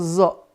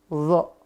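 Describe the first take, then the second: First: It sounds like a plain light z. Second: The tongue tip touches the upper teeth, heavy sound. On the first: The speaker calls it wrong. "Bukan zo" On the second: The speaker calls it right. "tapi dia bunyinya adalah zo"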